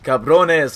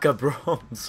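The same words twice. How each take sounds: First: The final E is pronounced as a syllable. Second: The final E is silent, as in English. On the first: The speaker calls it right. "The E is not silent" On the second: The speaker calls it wrong. "not cabrones"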